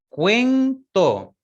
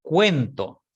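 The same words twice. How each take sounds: First: Cuento said higher and louder, stressing cuen-to; emphatic model word. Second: Said in the usual way. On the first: Shown as a demonstration. Teacher modelling a diptong word, emphatic. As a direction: repeat cuento with a strong, raised emphasis. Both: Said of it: "por ejemplo".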